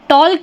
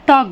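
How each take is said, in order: First: An l sound is heard before the k. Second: No l sound is heard before the k. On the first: The speaker calls it wrong. "टॉल्क नहीं बोलते हम" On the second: The speaker calls it right. "टॉक बोलते हैं"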